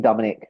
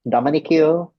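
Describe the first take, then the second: First: The name ends without any 'cue' sound. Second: The name ends with a pronounced 'cue' sound. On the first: The speaker calls it right. "should be Dominic" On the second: The speaker calls it wrong. "they were calling me like Dominic Q"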